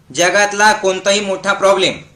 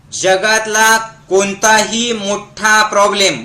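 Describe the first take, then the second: First: Said in the usual way. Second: Slow, measured line for repeating; slow dictation. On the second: Shown as a demonstration. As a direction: spell it out slowly for a crowd to echo. Models line for crowd to repeat. (सावकाश, म्हणवून घेत)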